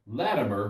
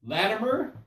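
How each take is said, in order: First: Name dropped low with a falling tune; falling call to self. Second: Name lifted high with a rising tune; rising call to self. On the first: Latimer warns himself before the king, low falling call. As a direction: set your own name down firmly. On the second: Latimer warns himself before the king, rising call. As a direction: call your own name up like a question. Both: Retold or imitated. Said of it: "Then I thought".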